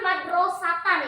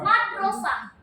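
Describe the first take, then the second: First: The word ends in a full -atan sound. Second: The word ends in a soft -ah sound. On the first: The speaker is not stopping on the word. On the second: The speaker stops on the word.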